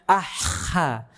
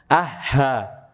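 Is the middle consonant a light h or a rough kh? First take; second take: rough kh; light h. First: The middle consonant is a rough, scraping kh. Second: The middle consonant is a light, breathy h. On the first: "kelebihan timbangannya ... kecampur sama huruf kha" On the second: "turun dia ke tenggorokan bawah ... berubah jadi huruf H"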